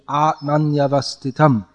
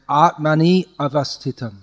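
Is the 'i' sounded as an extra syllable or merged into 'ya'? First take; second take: merged; extra syllable. First: The 'i' glides into 'ya' with no extra syllable. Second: The 'ni' is a separate extra syllable. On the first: The speaker calls it right. "but it should be Atmanyavastitam" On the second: The speaker calls it wrong. "you're saying Atmani avastitam"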